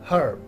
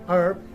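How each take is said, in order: First: The word begins with an audible H sound. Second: The word begins directly with a vowel sound. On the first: "We do pronounce H here" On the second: "in American accent, H is silent"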